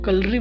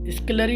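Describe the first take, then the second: First: The word begins with a k sound. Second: The word begins with an sk sound. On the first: The speaker calls it right. "कलरी बोलेंगे" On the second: The speaker calls it wrong. "स्कलरी नहीं बोलेंगे इसको"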